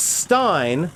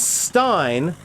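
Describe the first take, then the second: First: The vowel sounds like the one in 'line'. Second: The same.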